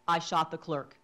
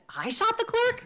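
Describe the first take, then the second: First: The voice falls like a plain statement. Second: The voice rises like an incredulous question.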